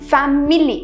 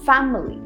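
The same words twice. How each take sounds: First: The middle vowel is a full vowel. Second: The middle vowel is a short reduced vowel. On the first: The speaker calls it wrong. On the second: The speaker calls it right.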